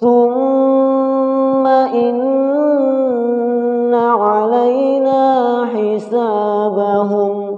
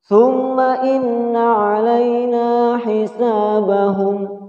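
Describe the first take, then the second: First: The doubled n sound is held for two beats. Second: The doubled n sound is cut short. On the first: The speaker calls it right. "Ditahan dua harokat" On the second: The speaker calls it wrong. "Ini cara baca yang salah"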